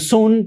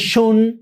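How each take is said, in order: First: The vowel is a plain Spanish u sound. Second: The vowel is a front rounded ü sound. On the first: The speaker calls it wrong. "Diríamos en español" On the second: The speaker calls it right. "que se pronuncia así"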